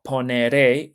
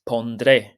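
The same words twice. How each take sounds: First: Poneré, said as the regular mistake; wrong form poneré. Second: Pondré, slow, with the d clearly sounded; correct form pondré. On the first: Teacher showing the wrong future poneré. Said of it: "So it's not poneré". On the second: Teacher giving the right future pondré. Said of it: "it's pondré". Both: Shown as a demonstration.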